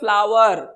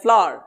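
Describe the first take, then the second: First: The vowel sounds like a drawn-out 'aao'. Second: The vowel sounds like a single 'au'. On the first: The speaker calls it wrong. "हम लोग पढ़ते हैं फ्लावर, बचपन से यही सिखाया गया है" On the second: The speaker calls it right. "ये है फ्लावर ... औ की तरह होता है"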